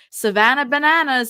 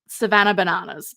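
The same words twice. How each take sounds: First: It is said in an American accent. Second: It is said in an Australian accent. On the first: The two words rhyme. The speaker calls it right. "the American accent" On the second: The two words do not rhyme. The speaker calls it wrong. "if I say it with an Australian accent"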